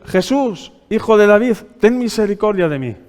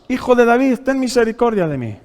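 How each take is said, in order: First: A blind beggar's raised cry, pitch lifted; calling out. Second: A higher, louder, more urgent plea; crying out louder. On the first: Blind Bartimaeus calls to Jesus by the road, raised cry. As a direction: call out to Jesus across the crowd. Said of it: "comenzó a dar voces". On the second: Blind Bartimaeus cries louder over the scolding crowd, urgent plea. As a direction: cry out over the crowd that hushes him. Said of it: "él clamaba mucho más". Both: Acted.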